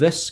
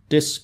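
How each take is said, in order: First: It begins with a th sound. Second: It begins with a d sound. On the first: "就真係一個 th 音嚟嘅" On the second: "佢係讀 D 音嘅，佢變成 this 咁樣嘅"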